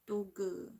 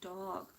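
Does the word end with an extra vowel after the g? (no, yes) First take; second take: yes; no. First: An extra vowel is added after the final g. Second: The word ends cleanly on the g sound. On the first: The speaker calls it wrong. "It should not be dogu" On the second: The speaker calls it right. "it should be dog"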